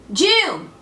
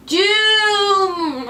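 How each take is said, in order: First: Short cry of doom; prophetic cry. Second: Long, high wail on DOOM; wailing prophecy. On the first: Cassandra warning her city, short prophetic cry. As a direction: call out DOOM in one burst. Prophecy cried out, first take. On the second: Cassandra warning her city, long high wail. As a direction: draw DOOM out like a siren. Prophecy cried out, drawn-out repeat. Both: Acted.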